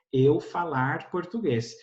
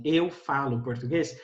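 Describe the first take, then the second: First: "Eu falar português" said slowly with the verb left as falar; a learner's "Eu falar português", spoken slowly; infinitive error. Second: Said in the usual way. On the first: Shown as a demonstration. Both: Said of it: "em vez de eu falar assim".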